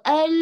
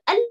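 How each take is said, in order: First: "al" with a long, lingering L; drawn-out al. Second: First "al" stopped short on the L; quick, abruptly closed "al"; cut-short al. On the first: Teacher shows the other wrong lam, drawn-out. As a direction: stretch the L of "al" too far. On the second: Teacher shows the wrong lam again, cut short. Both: Shown as a demonstration. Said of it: "Tapi tengah-tengah".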